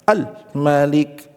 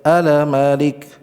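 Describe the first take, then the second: First: The L is pressed hard and held tight. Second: The L bounces, adding an extra vowel. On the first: "Keras, seakan suara tertekan" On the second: "itu ada pantulan"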